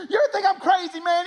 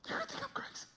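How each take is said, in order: First: Frantic, high redneck yell; hammed-up redneck, loud and wild; redneck stranger. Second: Tiny, very high hushed voice; redneck stranger confiding. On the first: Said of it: "the most redneck human being you've ever met". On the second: Retold or imitated. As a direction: squeak it confidentially, barely audible. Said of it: "he looks him in the eye".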